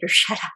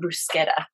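First: The word is said with American-style pronunciation. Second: The word is said with Italian-style pronunciation. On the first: It sounds normal to local listeners. "You just say bruschetta" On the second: It sounds foreign to local listeners. "can I have some bruschetta? They'd be like, what?"

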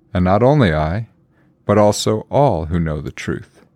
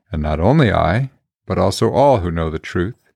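The two takes are said the same way.

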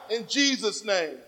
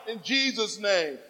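No difference in how they are said.

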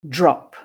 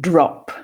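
First: The word starts with a 'jr'-like sound. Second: The word starts with a plain 'dr' sound. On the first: "And now to the dr cluster, pronounced dr" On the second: "listen and repeat the dr cluster, pronounced dr"

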